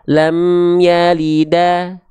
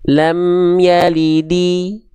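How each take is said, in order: First: The last word ends with an 'a' vowel. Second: The last word ends with an 'i' vowel. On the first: "nggak dibaca lam yalida" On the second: "nggak dibaca"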